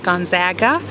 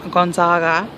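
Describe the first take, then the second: First: It is said in the local Spokane way. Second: It is said in the Italian way. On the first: This is how the university names itself. The speaker calls it right. "The proper pronunciation in Spokane and for the university is Gonzaga" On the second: This is how outsiders often say the name. The speaker calls it wrong. "Italian pronunciation of the name Gonzaga"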